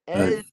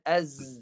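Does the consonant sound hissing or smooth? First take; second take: smooth; hissing. First: The consonant is voiced without any hiss. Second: The consonant has a hissing, whistling sound. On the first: The speaker calls it right. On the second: The speaker calls it wrong. "macam mana desiran?"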